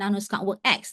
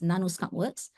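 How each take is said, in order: First: The final letter X is spoken aloud. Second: No X sound is heard at the end. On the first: The speaker calls it wrong. "a lot of people did not pronounce this company correctly" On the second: The speaker calls it right. "The X is silent"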